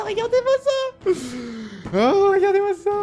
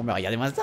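First: Delighted squeal. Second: Said in the usual way. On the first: Real, not acted. Gamer showing off his winning move, high delighted squeal. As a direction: crow high with glee.

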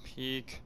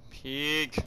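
First: Whispering. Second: Said in the usual way. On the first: Real, not acted. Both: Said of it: "hiding from an enemy".

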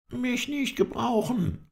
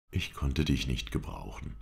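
First: Very high, drawn-out indignant echo; indignant disbelief. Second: Said in the usual way. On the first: A narrator's reading. Halef protests at being called no use, indignant. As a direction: repeat it slowly, pitched right up in protest. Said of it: "indem er ganz energisch".

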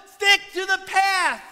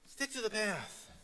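First: Pastor's loud warning to stray Christians; loud command. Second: Soft repeat. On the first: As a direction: Stick to the path called out high and loud. Loud command, then repeated softly. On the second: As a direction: stick to the path said much softer, pulled back. Soft repeat after loud call. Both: Acted.

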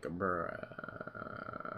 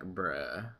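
First: Long, breathy, weary whisper; whispered bruh. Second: Said in the usual way. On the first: Retold or imitated. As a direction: sigh it out, drained. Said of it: "you're just sitting there and you're like". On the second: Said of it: "you're like, bruh".

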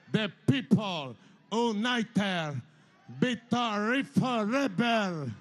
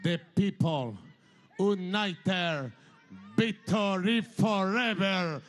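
First: "The people united, victory forever" chanted very slowly, stretching "united" and "forever"; slow chanted slogan. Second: Put-on "The people united, victory forever" in English with a heavy Spanish accent, "victory" said "bitori"; quoting his own English slogan, slow and Spanish-flavoured; slogan in English with a strong Latin American Spanish accent, "forever" as "foreber". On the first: Shown as a demonstration. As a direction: drag it out like a rally chant for the crowd. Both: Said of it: "se lo dije en inglés".

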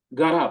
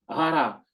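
First: Гара begun with a crisp hard g, gara; гара with a clear, hard Hebrew g; hard g sound. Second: Гара begun with a soft breathy Ukrainian h, ɦara; Гара slipping into the Ukrainian breathy h sound. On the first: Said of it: "має бути звук г". (гара з чітким твердим ґ) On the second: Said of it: "Ой, гара, правильно". (Гара з українським м'яким г) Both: Shown as a demonstration.

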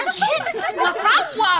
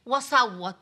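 First: تصويت مسرحي بطيء وعالي; صراخ مبالغ؛ hammed-up wailing, slow and higher. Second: Said in the usual way. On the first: Shown as a demonstration. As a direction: wail it out like she's howling down the phone. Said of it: "بقيت اشحن واصوت". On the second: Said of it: "بقيت اشحن".

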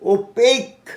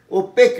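First: ওপেক as o-peik, long gliding vowel. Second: ওপেক as o-pek, short e; wrong pronunciation. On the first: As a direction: stretch the second vowel of ওপেক into ei. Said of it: "long vowel হয়ে গেল". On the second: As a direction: keep the vowel of ওপেক short, no glide. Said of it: "ওপেক নয়". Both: Shown as a demonstration.

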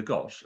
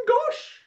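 First: Said in the usual way. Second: Very high, loud GOSH; amazed exclamation. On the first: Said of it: "both the right sorts of words". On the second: A narrator's reading. Parrot exclaiming at the extraordinary house, amazed. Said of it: "exclaimed Patrick".

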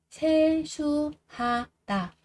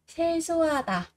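First: 세수하다 slowly split as 세-수-하-다; syllable by syllable. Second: Said in the usual way. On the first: Shown as a demonstration. Teacher drilling learners on 세수하다, slow and separated. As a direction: spell out 세수하다 one slow syllable at a time.

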